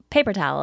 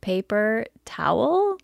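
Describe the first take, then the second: First: Paper towel said quickly as one word; imitating one-word "paper towel"; run-together paper towel. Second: Paper towel slowly, split into two words, questioning; pointedly separated "paper... towel?"; two separate words. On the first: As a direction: merge paper towel, stress up front. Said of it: "you're always like". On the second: Retold or imitated. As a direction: pause between paper and towel. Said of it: "it's two words, not one".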